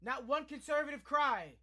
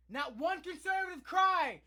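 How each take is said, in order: First: Said in the usual way. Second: Slow, loud, higher angry shout; angry outcry. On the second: Real, not acted. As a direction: hammer it home with fury. Repeated line, shouted.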